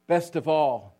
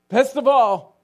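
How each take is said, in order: First: Said in the usual way. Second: Best of all much higher and louder, exultant; the repeated words rise to a joyful shout; exultant cry. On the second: Retold or imitated. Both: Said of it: "kept saying, repeating".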